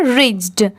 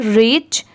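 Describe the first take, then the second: First: रिच्ड with a d after the ch; ed ending. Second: रिच ending on ch, no d; teacher gives the bare रिच; say reach. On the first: Teacher adds the ed ending for students, रिच्ड. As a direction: add the d to रिच्ड. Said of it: "last में जैसे यहाँ पर ई डी लगा हुआ है". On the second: Teacher shows students the base word, रिच without d. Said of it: "तो इसकी pronunciation क्या है?". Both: Shown as a demonstration.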